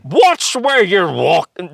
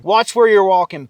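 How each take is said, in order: First: High, very slow, clumsy mock British accent; a badly faked British accent, drawn out; failed British accent. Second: Model British line. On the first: Told to try the line, he mangles a British accent. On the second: Shown as a demonstration. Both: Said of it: "Try that one".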